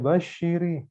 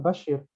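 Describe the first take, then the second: First: The word ends with an added i vowel. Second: The word ends on the consonant r. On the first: The word is read as if joined to the next word. The speaker calls it wrong. "jangan dibaca Bashiri, nggak boleh" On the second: The word is read in its stopping form. The speaker calls it right. "tetap Bashir"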